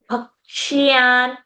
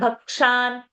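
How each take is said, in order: First: A y sound follows the sh. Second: No y sound follows the sh. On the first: The speaker calls it right. "It's ya over there" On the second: The speaker calls it wrong. "and not bhakshan"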